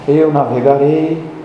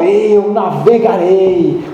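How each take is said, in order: First: It is said flatly, with little energy. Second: It is said intensely, with strong energy. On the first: The speaker calls it wrong. "não pode ser uma coisa tipo" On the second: The speaker calls it right. "Tem que ser uma coisa intensa"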